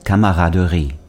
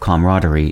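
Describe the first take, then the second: First: The word is pronounced with a French accent. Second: The word is pronounced with an English accent.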